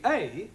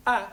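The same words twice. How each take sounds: First: A said as the letter's name, "ay"; A as in "fate"; long A. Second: A said as a short "a", as in "fat"; clipped flat A, not "ay". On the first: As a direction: say A as a long "ay" vowel. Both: Shown as a demonstration. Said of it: "pronounced in three different ways".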